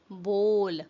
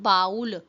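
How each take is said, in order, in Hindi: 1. स्वर 'oh' जैसा सुनाई देता है। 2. स्वर 'aw' जैसा सुनाई देता है। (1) "it's bowl" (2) "It's not baul"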